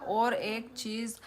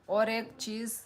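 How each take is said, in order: Both takes have the same delivery.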